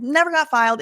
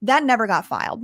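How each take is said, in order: First: Never punched higher and louder; stress on never. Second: Said in the usual way. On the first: Real, not acted. Repeating to the viewers that it was never filed, stress on Never. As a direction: hit the word Never hard on the repeat.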